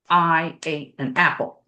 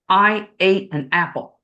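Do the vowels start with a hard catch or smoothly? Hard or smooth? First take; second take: hard; hard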